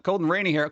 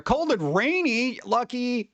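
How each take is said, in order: First: Said in the usual way. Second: Drawn out and higher, slowly, in disbelief; slow, higher, envious question. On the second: Real, not acted. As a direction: stretch it out like you can't believe their luck.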